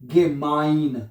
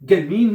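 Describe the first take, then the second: First: The second syllable has an 'eye' vowel. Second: The second syllable has an 'ee' vowel. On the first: The speaker calls it right. "इसको आई पढ़ा जाता है इंग्लिश का आई" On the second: The speaker calls it wrong. "गेमीन नहीं पढ़ना इसको"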